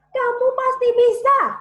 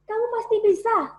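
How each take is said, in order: First: It is said loudly with maximum vocal power. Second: It is said with moderate vocal power.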